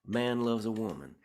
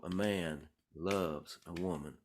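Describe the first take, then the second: First: "A man loves a woman" in one higher, connected run; different rhythmic feel. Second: "A man ... loves ... a woman", slow and spaced out; different rhythmic feel. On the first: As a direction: run the words together at a higher pitch, no gaps. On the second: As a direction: stretch it out, pausing after "man" and after "loves". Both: Retold or imitated. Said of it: "with different kinds of feels".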